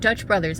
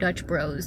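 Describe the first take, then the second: First: The second word is the full form 'Brothers'. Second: The second word is the short form 'Bros'. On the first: The speaker calls it wrong. "Sorry if I've been saying it wrong this entire time" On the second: The speaker calls it right. "is it just Dutch Bros?"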